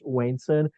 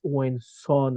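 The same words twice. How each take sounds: First: Said in the usual way. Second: Owenson with a full, drawn "zone"-like -son; Germanized ending. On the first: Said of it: "rather than just Owenson". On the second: Shown as a demonstration. Explaining a German surname, Germanized -son in Owenson. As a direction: say Owenson with the last syllable given full weight. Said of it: "so son, to Germanize their name".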